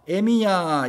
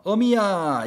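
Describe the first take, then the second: First: The first syllable has the vowel 'e'. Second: The first syllable has the vowel 'eo'. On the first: "할머니들 중에서 에미야 이렇게 부르시는 분들이 있어요" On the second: "어미야 이렇게 부르지 않고요"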